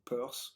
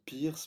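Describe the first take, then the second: First: The name's vowel sounds like 'purse'. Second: The name's vowel sounds like 'peer'. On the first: The speaker calls it right. "la prononciation euh, correcte du- de son nom de famille c'est Peirce" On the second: The speaker calls it wrong. "parfois on dit Pierce"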